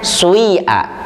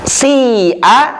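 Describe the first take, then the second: First: The first vowel is mixed with a u sound. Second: The first vowel is a plain i sound. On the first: This is the reading of another transmission. "dengan huruf far'inya ini dibacanya sui'a" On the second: This is the usual reading. "Kita baca si'a"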